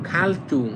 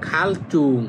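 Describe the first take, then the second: Both takes have the same delivery.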